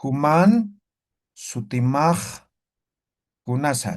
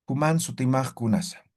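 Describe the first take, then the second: First: Human sutimaj kunasa said slowly word by word with pauses; slow model phrase. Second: Said in the usual way. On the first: Shown as a demonstration. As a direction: dictate it slowly for students to repeat. (pronunciación lenta y pausada para repetir) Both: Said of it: "vamos a decir".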